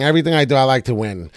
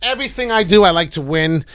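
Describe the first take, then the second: First: Said in the usual way. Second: Hyped-up, higher boasting delivery; emphatic boast. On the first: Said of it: "Listen, everything I do, I like to win". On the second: Real, not acted. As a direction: sell it like a winner's creed.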